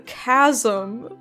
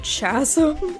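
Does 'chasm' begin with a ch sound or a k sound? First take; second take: k sound; ch sound. First: The word begins with a k sound. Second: The word begins with a ch sound. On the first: The speaker calls it right. "No, it's called the chasm" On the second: The speaker calls it wrong. "I just pronounced it how it was spelled"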